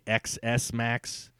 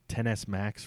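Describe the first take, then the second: First: The first part is said as the letter X. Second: The first part is said as the number ten. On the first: This is how most people say it. "Everyone's going to say X S Max" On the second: This is the official name. "ten S Max, really?"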